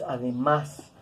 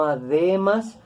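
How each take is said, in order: First: "además" stressed on the final syllable, a-de-MÁS; stress on last syllable. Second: "además" stressed on the middle syllable, a-DE-mas; wrong stress on middle syllable. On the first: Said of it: "pronunciamos además". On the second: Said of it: "Decimos no además". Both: Shown as a demonstration.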